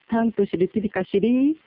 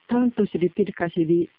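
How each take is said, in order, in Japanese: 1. 文末では音の高さが上がります。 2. 文末では音の高さは上がりません。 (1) "と上げれば疑問文になります" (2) "上げなければ簡単文になります"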